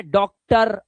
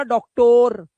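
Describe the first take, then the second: First: डॉक्टर slowly, ending in "tur"; correct ending. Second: डॉक्टर loud, as "dok-TORE"; wrong ending. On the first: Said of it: "आ की आवाज". (डॉक्टर के अंत में अ की आवाज़) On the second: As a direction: hammer a long O into the end of डॉक्टर. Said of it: "मत बोलना". (डॉक्टर को ज़ोर से "डॉक्टोर") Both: Shown as a demonstration.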